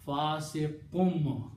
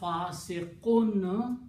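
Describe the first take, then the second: First: The word ends with an m sound. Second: The word ends with an n sound. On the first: The speaker calls it right. "will be pronounced as a fasiqum" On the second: The speaker calls it wrong. "The sound of fasiqun"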